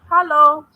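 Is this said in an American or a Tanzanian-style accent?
Tanzanian. It is said in a Tanzanian-style accent. "they'll say hello"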